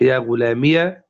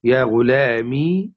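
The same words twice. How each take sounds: First: يا غلامية ending in "-miya"; ya with fatha. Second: Slow يا غلامي ending in long "ee"; silent ya. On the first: Teacher recapping forms, voweled "-iya" on يا غلامية. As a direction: add an open "a" after the ya in يا غلامية. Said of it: "إبقاؤها متحركة بالفتح". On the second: Teacher recapping forms, slow long "-mee" on يا غلامي. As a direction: hold the final "-mee" of يا غلامي. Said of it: "إبقاء الياء ساكنة". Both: Shown as a demonstration.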